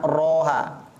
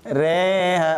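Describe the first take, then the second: First: The vowel after r is an open o. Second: The vowel after r leans toward e. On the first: The speaker calls it wrong. "bukan roha" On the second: The speaker calls it right.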